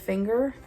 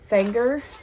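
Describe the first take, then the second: First: It is said in the standard way. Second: It is said in the local Southern way.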